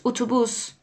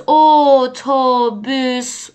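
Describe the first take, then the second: First: Said in the usual way. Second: «اتوبوس» drawn out slowly, syllable by syllable; slow syllable model. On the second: Shown as a demonstration. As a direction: stretch each vowel of «اتوبوس». («اتوبوس» کشیده و هجا به هجا)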